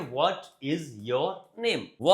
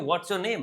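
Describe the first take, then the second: First: It is said at a normal, unhurried pace. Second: It is said quickly, with words run together.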